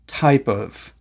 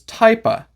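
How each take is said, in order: First: Both words are said fully and separately. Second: The two words blend into one reduced word. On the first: "the real words" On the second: "how we sometimes pronounce"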